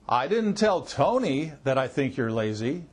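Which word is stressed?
Tony. The stress falls on the word Tony. Someone other than Tony was told. "That means maybe I told somebody besides Tony"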